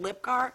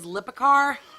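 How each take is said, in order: First: The name is said with two syllables. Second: The name is said with three syllables. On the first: The speaker calls it wrong. "I pronounced it Lipcar" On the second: The speaker calls it right. "it says Lipicar"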